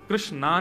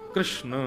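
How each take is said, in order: First: The name ends with a long 'aa' vowel. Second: The name ends without a long final vowel. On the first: The speaker calls it wrong. "कृष्णा नहीं" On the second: The speaker calls it right.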